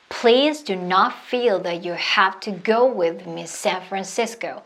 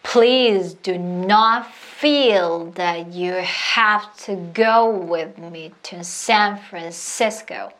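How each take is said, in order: First: It is said faster. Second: It is said slowly.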